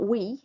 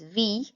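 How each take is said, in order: First: The word begins with a W sound. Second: The word begins with a V sound. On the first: The speaker calls it wrong. "so it's not we" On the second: The speaker calls it right. "it's V"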